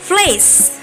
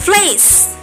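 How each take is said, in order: Both takes have the same delivery.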